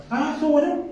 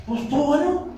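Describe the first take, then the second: First: High, thin mock reply of a bored husband. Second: High, thin mock reply again; bored husband. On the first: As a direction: toss it off like the unimpressed husband. (esposo aburrido con voz aguda y desganada) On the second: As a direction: shrug it off, high and lazy. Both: Husband answers wife after service.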